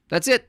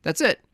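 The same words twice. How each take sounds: First: "it" pitched far higher, rising. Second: "it" rising; rising tune. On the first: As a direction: jump up on "it". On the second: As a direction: lift "it" at the end. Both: Shown as a demonstration. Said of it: "repeated punchline".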